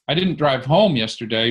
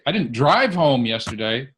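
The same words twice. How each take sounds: First: The stress is on the word home. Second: The stress is on the word drive.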